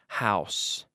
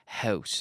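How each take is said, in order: First: The word is said with an American accent. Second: The word is said with a Canadian accent. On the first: "Los americanos dicen house" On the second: "Yo estoy hablando con mi acento canadiense"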